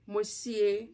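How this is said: The middle consonant is an s sound. The speaker is from Kiambu. "someone from Kiambu will say moshie"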